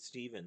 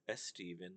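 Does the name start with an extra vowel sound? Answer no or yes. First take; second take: no; yes. First: The name starts directly with the s sound. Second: The name starts with an added e sound. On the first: The speaker calls it right. "There's no E at the beginning" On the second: The speaker calls it wrong. "not S Steven"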